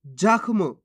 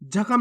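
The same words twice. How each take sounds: First: जख्म as jakh-mu, ख joined to म; no vowel after ख in जख्म; half-letter pronunciation. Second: जख्म as ja-kham; full-letter misreading. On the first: Teacher answers how to read it, जख्म with half ख. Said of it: "कैसे पढ़ेंगे". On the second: Teacher warns learners off it, जख्म with full ख. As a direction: put a vowel after ख in जख्म. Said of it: "नहीं पढ़ना". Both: Shown as a demonstration.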